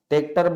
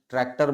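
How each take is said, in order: First: ट्रैक्टर said as tek-tar, no r after the t, the easy village way; village pronunciation. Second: ट्रैक्टर said in full as trek-tar, with a clear r after the t; standard pronunciation. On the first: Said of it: "ट्रैक्टर बोलना आसान है". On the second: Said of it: "ट्रैक्टर बोलना कठिन है". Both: Shown as a demonstration.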